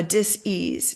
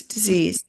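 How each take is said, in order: First: "dis-ease" said as two parts, dis and ease; split-word pronunciation. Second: Said in the usual way. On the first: Shown as a demonstration. Explaining the soul technique, "dis-ease" split in two. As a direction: pull "dis-ease" apart into DIS-EASE, with an s sound.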